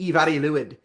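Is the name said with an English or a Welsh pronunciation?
Welsh. The name is said with Welsh sounds. The speaker calls it right.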